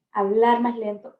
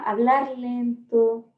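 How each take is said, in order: First: Said in the usual way. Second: Drawn-out, slowed speech showing how to talk; slow demo. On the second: Shown as a demonstration. Teacher showing trainees how slowly to talk, drawn-out. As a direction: stretch it out slowly to model calm.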